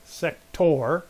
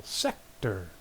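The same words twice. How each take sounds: First: "sector" with a slow rising stress on the second syllable; wrong stress, as the teacher demonstrates. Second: "sector" with a low, falling stress on SEC; stress on first syllable. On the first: Teacher showing students the wrong way to say "sector", slowly. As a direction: say "sector" drawn out, leaning on -tor. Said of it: "It's not sector". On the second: Teacher giving students the right "sector", low and firm. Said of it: "no, the first syllable". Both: Shown as a demonstration.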